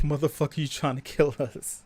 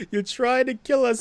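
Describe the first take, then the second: First: Said in the usual way. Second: Louder, higher outraged yell; outraged shout. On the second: Retold or imitated. Citizen yelling at the politician, outraged shout. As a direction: shout it back in disbelief. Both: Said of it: "It's like".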